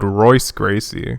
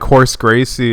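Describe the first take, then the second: First: The first name begins with an English R sound. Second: The first name begins with an H-like sound. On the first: "it's spelled" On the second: "The R's are H's"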